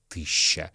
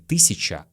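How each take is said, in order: First: It uses the old Moscow pronunciation. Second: It uses the ordinary modern pronunciation. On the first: The speaker calls it right. "а тысяча. ... Это старомосковское произношение" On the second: The speaker calls it wrong. "нас учили говорить не тысяча"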